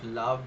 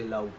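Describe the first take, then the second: First: The word is said with a V sound. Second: The word is said with a W sound. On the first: "instead of love" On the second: "people from Scotland usually don't say ver, they say were"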